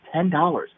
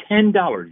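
First: Said in the usual way. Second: "ten dollars" pitched high for emphasis; "ten dollars" said high, in amazed emphasis; emphatic stress. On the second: Real, not acted. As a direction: hammer home "ten dollars", pitch jumping up. Repeats price after "literally.

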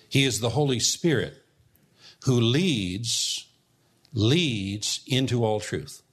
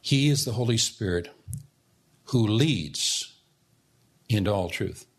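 First: "leads" said slowly and weightily, doubled with a pause; stress on leads. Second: "leads" set apart by pauses and held; pause, then land on "leads"; stress on leads. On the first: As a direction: lean hard on "leads", then slow down. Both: Shown as a demonstration. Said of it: "I emphasize the word leads".

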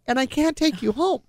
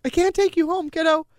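First: Said in the usual way. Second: Pitched up high and louder, near tears; voice breaking. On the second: Retold or imitated. Mother telling her dying kid she can't go home, voice breaking. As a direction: let it crack upward as you plead. Telling daughter surgery news.

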